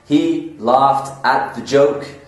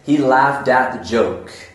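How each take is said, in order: First: The end of 'laughed' is a clear T sound. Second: The end of 'laughed' is a D sound.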